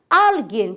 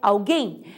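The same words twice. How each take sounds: First: The stress is on the first syllable. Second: The stress is on the last syllable. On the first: This is the Spanish form. "a sílaba tônica é penúltima" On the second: This is the Portuguese form. "em português é alguém"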